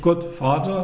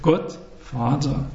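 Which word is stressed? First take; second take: Vater; Gott. First: The word Vater carries its own stress. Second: The stress is on Gott, Vater unstressed. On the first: The speaker calls it wrong. "nicht Gott Vater" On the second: The speaker calls it right. "das zweite Wort ist unbetont, weil es sich an die Betonung des ersten lehnt"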